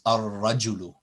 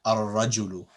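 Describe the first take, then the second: The two takes are said the same way.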